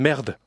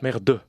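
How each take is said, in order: First: The stress falls on the first syllable. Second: The stress falls on the final mute e. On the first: The speaker calls it right. "on place l'accent sur l'avant-dernière syllabe" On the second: The speaker calls it wrong. "On ne fait pas merde"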